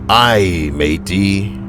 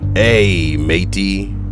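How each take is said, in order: First: The first word sounds like 'eye'. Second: The first word does not sound like 'eye'. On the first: The speaker calls it right. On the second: The speaker calls it wrong.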